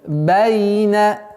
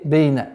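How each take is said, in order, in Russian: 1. Первый гласный звучит как 'a'. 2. Первый гласный звучит как 'e'.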